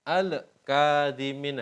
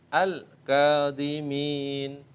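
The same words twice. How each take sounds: First: An extra echo vowel follows the L sound. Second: The L is clear with no echo vowel. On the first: The speaker calls it wrong. "nah itu ada e itu salah" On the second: The speaker calls it right. "Itu cara membacanya yang benar seperti itu"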